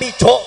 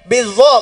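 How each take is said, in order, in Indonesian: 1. Kata itu diucapkan dengan bunyi ch. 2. Kata itu diucapkan dengan bunyi z. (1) "bukan bico" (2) "bizo bukan bico"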